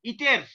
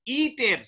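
First: Said in the usual way. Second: ইটের-এ ই অতিরিক্ত টেনে বলা; ইটের শব্দের প্রথম ই লম্বা; ভুল দীর্ঘ ই. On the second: Shown as a demonstration. (ইটের-এর ই দীর্ঘ করে দেখানো) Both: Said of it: "ইটের এরকম বলি না".

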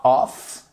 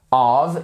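First: "of" ending in a hard F; mispronunciation to avoid. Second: "of" ending in a voiced V; correct V sound. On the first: Teacher shows learners the wrong final sound, mispronounced. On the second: Teacher warns learners about the final sound, correct pronunciation. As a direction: say "of" as "ov", held slowly. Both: Shown as a demonstration. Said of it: "of et pas of".

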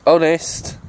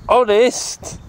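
First: Said in the usual way. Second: Honest? with a high questioning rise; doubtful question. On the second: Pretend. He questions his own claim, Honest? rising high. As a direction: ask Honest? back, pitch jumping up.

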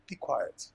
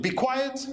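First: Soothing hush. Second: Commanding. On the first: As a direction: settle him gently, not a scold. Parent soothing flustered little boy. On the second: The Lord commanding the storm, high ringing order. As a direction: order the sea to stop at once. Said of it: "Our Lord commanded". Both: Acted.

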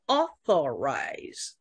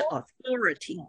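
First: "authorize" with AU stressed, then falling; stress on first syllable. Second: "authority" with THOR stressed; stress on second syllable. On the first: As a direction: model the verb "authorize", punching AU. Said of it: "动词的重音是第一音节". (“authorize”动词，重音在第一音节 AU) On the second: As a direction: model the noun "authority", weight on THOR not AU. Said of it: "名词是authority". (“authority”名词，重音在第二音节 THOR) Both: Shown as a demonstration.

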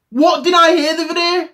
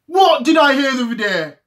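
First: Lifted, put-on voice for the question; raised mock voice. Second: Said in the usual way. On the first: Teasing the viewers with a put-on voice. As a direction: ask it in a higher, funny voice. Repeated rhetorical question, first take.

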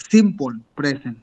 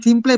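First: "simple present" with "simple" ending like "sim-pol"; English pronunciation. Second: "simple" said the Spanish way, ending in -ple; Spanish-style pronunciation. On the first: Shown as a demonstration. Teacher showing the class how he says it, English pronunciation. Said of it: "lo repitió como yo lo digo". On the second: Retold or imitated. Teacher retelling a student's first attempt, Spanish-style pronunciation. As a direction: mimic a learner's slip, "simple" with a Spanish -ple. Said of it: "yo no digo simple present".

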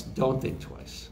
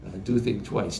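First: "don't think twice" whispered slowly and softer; whispered second voice. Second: Said in the usual way. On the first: Retold or imitated. Engineer quoting the whispered second voice of the song line, slow whisper. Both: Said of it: "It's that contrasting of that".

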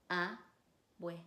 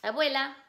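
First: "Abuela" in pieces, a, bue, la; split into syllables. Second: Said in the usual way. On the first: Shown as a demonstration. Teacher breaks the word down for students, "Abuela" syllable by syllable. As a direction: pause after each syllable of "Abuela". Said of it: "decir las sílabas". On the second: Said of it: "repetir la palabra y decir las sílabas".

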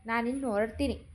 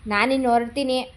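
First: Said in the usual way. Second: ನಾನಿನ್ನು said louder, insisting; firmer repeat. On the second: Acted. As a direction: repeat ನಾನಿನ್ನು ಹೊರಡ್ತೀನಿ louder to make them listen.

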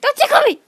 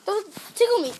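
First: Higher, louder ticklish plea; being tickled. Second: Half-laughing ticklish protest; being tickled. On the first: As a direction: squeal it out while tickled. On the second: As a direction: plead while being tickled. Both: Real, not acted.

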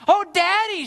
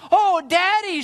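First: High, loud cry of protest; distressed cry. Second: High, loud cry of joy; jubilant cry. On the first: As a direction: cry out to Daddy in dismay. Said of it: "she cried". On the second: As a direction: cry out to Daddy, overjoyed. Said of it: "this time with jubilance". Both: A narrator's reading.

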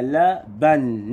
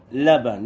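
First: لبن slowly broken as la, ban; split syllables. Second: Said in the usual way. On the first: Shown as a demonstration. Teacher building a word from letters, split syllables. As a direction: separate the two syllables of لبن. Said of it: "الكلمة التانية هنا نكتب إيه؟".

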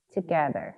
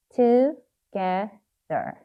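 First: Said in the usual way. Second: "Together" slowly, one syllable at a time; sounding out while writing. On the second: Shown as a demonstration. Teacher telling learners to write, saying "Together" in syllables. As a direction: separate "Together" into to, ge, ther. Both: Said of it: "발음을 하시면서 쓰셔야 됩니다".

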